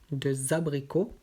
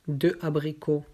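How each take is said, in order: First: The final consonant links into the next word. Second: The words are said separately, with no linking. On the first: The speaker calls it right. "après avec la liaison" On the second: The speaker calls it wrong. "d'abord sans la liaison"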